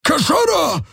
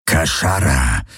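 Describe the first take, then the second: First: Very high alien bellow; roaring shout. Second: Low creature growl. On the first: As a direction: bellow the warning at her. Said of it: "brüllte er sie an". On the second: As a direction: growl it, much lower. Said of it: "knurrte er". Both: A narrator's reading.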